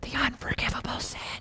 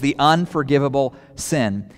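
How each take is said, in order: First: It is whispered. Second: It is said in a normal voice.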